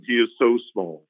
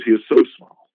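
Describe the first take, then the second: First: Said in the usual way. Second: So small, pleaded louder with a lift at the end; a prophet begging the Lord for pity; pleading prophet. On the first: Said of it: "the prophet cries out and says". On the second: Retold or imitated. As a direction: plead for little Jacob, leaning on so. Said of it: "And he says".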